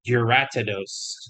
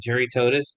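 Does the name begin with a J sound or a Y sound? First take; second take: Y sound; J sound. First: The name begins with a Y sound. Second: The name begins with a J sound. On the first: The speaker calls it right. "but apparently it's a Uratidos" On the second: The speaker calls it wrong. "I've been calling him a Juritotus"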